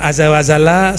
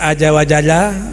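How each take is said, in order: First: The consonants are said as a 'z'. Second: The consonants are said as a plain 'j'. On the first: This is the standard Arabic reading. "sama aja" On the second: A layperson reads it this way. "Orang baca aja wajala"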